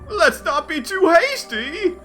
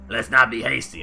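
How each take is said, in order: First: It is said in a sophisticated, refined voice. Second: It is said in a rough, gruff voice.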